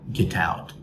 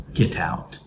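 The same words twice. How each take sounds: No difference in how they are said.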